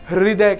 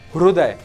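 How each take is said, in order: First: The r is followed by an i vowel. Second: The r is followed by a u vowel. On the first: This is how it is said in the speaker's region. "हमारे यहां पर हृदय कहा जाता है" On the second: This is how Marathi speakers say it. "रू का use होता है"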